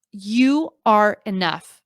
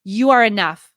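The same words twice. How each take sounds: First: Slow, tender reassurance; slow, sincere. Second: Said in the usual way. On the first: Shown as a demonstration. Telling struggling creators they are enough, slow and tender. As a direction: let each word land slowly. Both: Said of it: "I just need to say that one more time".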